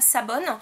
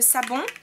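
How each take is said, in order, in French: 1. Le nom finit par un son n clair. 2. Le nom finit par une voyelle nasale.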